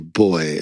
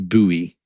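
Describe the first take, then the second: First: It is said the British way. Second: It is said the American way. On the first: "we say boy" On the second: "they always say buoy"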